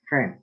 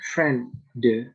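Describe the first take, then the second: First: The final d is weak or dropped. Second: The final d is clearly pronounced. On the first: The speaker calls it right. "All you have to say is friend" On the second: The speaker calls it wrong. "You don't have to say friend, de"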